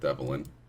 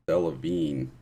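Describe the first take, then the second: First: The name ends with a 'lin' sound. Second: The name ends with a 'veen' sound. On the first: The speaker calls it wrong. "not Devlin" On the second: The speaker calls it right. "Delavine is how you pronounce it"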